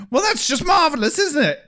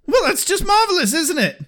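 First: High, fast Monty Python-style British sarcasm; British accent. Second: Put-on high, fast sarcastic British accent. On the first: Retold or imitated. Comparing Giles to a Monty Python sketch, high fast British accent. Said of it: "Monty Python when he was doing the sketch". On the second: Quoting Giles losing his temper, fast sarcastic British accent. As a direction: sneer it in a posh British accent. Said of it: "real British accent".

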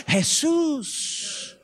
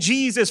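First: Jesus said the Spanish way, hay-SOOS, softer and drawn out; Spanish-style Jesus, stressed on the long second syllable; Spanish pronunciation. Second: Said in the usual way. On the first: Shown as a demonstration.

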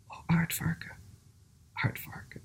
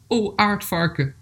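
First: Zacht, stemloos fluisteren; gefluister. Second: Langzame, hogere aanroep; voorgelezen aanroep. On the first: A narrator's reading. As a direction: fluister het als een stem in gedachten, met een pauze. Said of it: "hoorde in gedachten iedereen fluisteren". (fluisterend voorgelezen) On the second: Acted. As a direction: spreek het dier gedragen aan, met dalende toon. Dieren spreken aardvarken aan in verhaal. (hardop aanroepen in voorleesstem)

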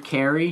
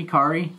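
First: Kari with the first vowel as in "care"; KERR-ee pronunciation. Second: Kari with the first vowel as in "car"; KAR-ee pronunciation. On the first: Game master checking a player's name, Kari said as KERR-ee. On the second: Game master checking a player's name, Kari said as KAR-ee. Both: Shown as a demonstration. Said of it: "How do you say it".

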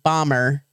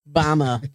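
First: Said in the usual way. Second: "Bama" for Bomber, final R dropped to "ah". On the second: Shown as a demonstration. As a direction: say "Bama" low, ending in an open "ah" with no R. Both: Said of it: "if I couldn't say my R's".

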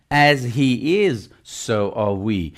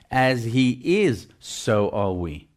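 First: Slow, weighty as he is, so are we; stressed teaching phrase. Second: Slow, fading as he is, so are we; softer repeat. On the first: Preacher teaching the congregation, slow stressed phrase. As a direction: lean on as he is and so are we, slowly. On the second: Preacher repeating the verse to the church, softer and slow. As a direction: let as he is, so are we sink in quietly. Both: Shown as a demonstration. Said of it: "I'm teaching you today".

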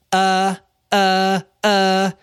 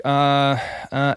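First: High, droning mock stammer; mocking imitation. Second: Said in the usual way. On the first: Woman mimics him trying to find the words, mocking. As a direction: parrot someone's hesitation in a higher voice to needle them. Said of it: "she was being a bitch". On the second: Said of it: "I'm trying to, like, find the words".

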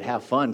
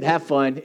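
First: Said in the usual way. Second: Cheerful, emphatic "Have fun". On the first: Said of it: "He said". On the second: Retold or imitated. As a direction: punch "Have fun" with a lift. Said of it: "So he said".

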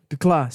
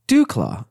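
First: "DeClaw" said as duh-CLAW, with a weak first vowel; corrected name. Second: "Duclaw" said as DOO-claw, with an oo vowel; wrong name. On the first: Host correcting the brewery name to DeClaw. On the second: Host misreading the brewery name as Duclaw. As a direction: say "Duclaw" with a DOO first syllable. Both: Shown as a demonstration. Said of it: "I'm sorry".

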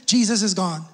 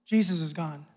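First: Said in the usual way. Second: Much lower, much softer echo of Jesus is gone; hushed repeat. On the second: Shown as a demonstration. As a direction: let it sink in, almost a hush. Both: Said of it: "repeated softer".

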